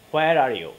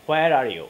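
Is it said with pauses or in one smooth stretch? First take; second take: smooth; smooth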